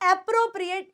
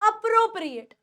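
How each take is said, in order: First: The first vowel is a clear 'eh' sound. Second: The first vowel is a short 'uh' sound. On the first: The speaker calls it wrong. "ए ले जाते हैं, ... नहीं, it is not एप्रोप्रिएट" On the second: The speaker calls it right. "It is अप्रोप्रिएट"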